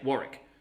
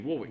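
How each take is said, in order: First: It is said the Australian way. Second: It is said the British way.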